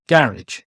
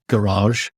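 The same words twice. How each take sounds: First: It is said with a British pronunciation. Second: It is said with an American pronunciation. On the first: "in the U K, I pronounce it garage" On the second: "I don't pronounce garage like garage"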